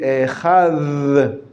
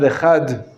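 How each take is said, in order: First: The final consonant is a soft th sound. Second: The final consonant is a hard d sound. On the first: The speaker calls it right. "properly pronounced, the word is echad" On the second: The speaker calls it wrong. "not echad"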